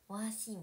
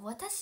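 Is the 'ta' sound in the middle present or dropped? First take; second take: dropped; present. First: The 'ta' is dropped and the vowels are stretched. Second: The word is said with the full 'ta' sound. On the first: "でもなんかたがほぼなくて、わーしーみたいになって" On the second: "なんか私って言ってる感じなんですけど"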